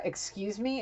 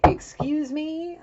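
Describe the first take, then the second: First: Affronted woman. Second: High, drawn-out incredulous "excuse me"; affronted woman. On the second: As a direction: stretch it upward in mock outrage. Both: Retold or imitated. Acting the woman's affronted reaction.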